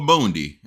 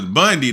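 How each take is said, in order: First: The first vowel sounds like 'boon'. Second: The first vowel sounds like 'bun'. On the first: The speaker calls it wrong. "I thought it was Bundy" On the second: The speaker calls it right. "So his name was Bundy the whole time"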